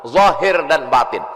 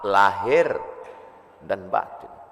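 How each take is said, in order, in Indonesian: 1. Frasa ini dimulai dengan bunyi z. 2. Frasa ini dimulai dengan bunyi l. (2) "Sampai ke Indonesia berubah"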